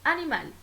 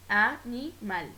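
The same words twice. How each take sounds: First: Said in the usual way. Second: "animal" broken slowly into a-ni-mal; "animal" in three drawn-out beats, a, ni, mal; syllable by syllable. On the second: Shown as a demonstration. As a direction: separate each syllable of "animal". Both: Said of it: "la división silábica".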